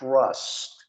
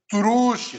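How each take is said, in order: First: The word ends cleanly on the t sound. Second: An extra vowel sound follows the final t. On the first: The speaker calls it right. "você viu que eu falei I trust" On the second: The speaker calls it wrong. "não falei truste"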